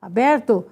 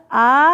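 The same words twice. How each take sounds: First: Said in the usual way. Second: Syllable by syllable. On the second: Shown as a demonstration. Teacher writing the word for students, "aberto" in separate syllables. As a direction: pause between each syllable of "aberto".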